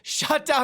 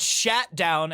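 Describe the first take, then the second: First: The first word has the vowel of 'hot'. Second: The first word has the vowel of 'hat'. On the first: The speaker calls it right. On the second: The speaker calls it wrong.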